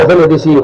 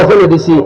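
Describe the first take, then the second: No difference in how they are said.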